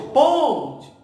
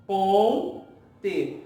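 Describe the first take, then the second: First: "Ponte" with a loud, high punch on "Pon"; strong, exaggerated stress on the "Pon" of "Ponte"; stress on first syllable. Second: "Ponte" split slowly into "Pon", then a weak "te"; "Ponte" broken in two, second syllable weak. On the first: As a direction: hit the first syllable of "Ponte" hard, raised and falling. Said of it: "Qual é a sílaba mais forte". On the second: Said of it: "O T é uma sílaba fraca". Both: Shown as a demonstration.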